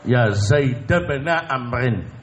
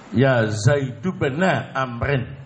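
First: The name Zaid ends with an 'a' vowel. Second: The name Zaid ends with a 'u' vowel. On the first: "bisa dibaca fathah mengikuti bacaan ibn" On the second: "dibaca mabni doma"

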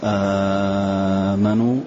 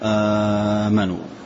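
First: The first vowel is held very long. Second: The first vowel is held short. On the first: "مد" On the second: "القصر"

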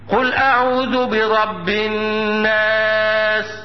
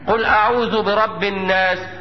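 First: The doubled n is nasalized and held long. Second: The doubled n is short, without held nasalization. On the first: The speaker calls it right. "ده النطق الصحيح" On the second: The speaker calls it wrong. "وبعض الناس اللي بسمعه مثلا ويقرأها لي هكذا"

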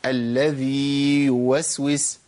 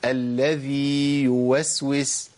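No difference in how they are said.

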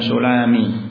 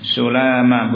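First: The m is followed by an i vowel. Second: The m is followed by an a vowel. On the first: The speaker calls it wrong. "bukan sulami" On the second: The speaker calls it right. "dibaca dengan memfathah mim"

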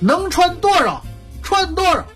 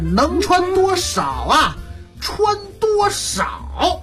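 First: It is said as one continuous statement. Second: It is split into two separate questions. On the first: Wear as much clothing as you possibly can. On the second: Wear as little clothing as you possibly can.

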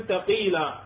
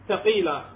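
The two takes are said the same way.

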